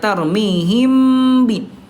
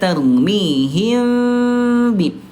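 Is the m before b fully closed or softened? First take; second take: closed; softened. First: The lips press fully closed on the m. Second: The lips barely touch, giving a softened m. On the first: The speaker calls it wrong. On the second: The speaker calls it right.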